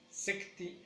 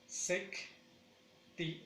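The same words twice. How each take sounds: First: Said in the usual way. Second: "secti" split with a long gap; sec, pause, short ti; slow two-beat "secti"; syllable by syllable. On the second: Shown as a demonstration. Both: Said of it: "digamos que lleva dos acentos".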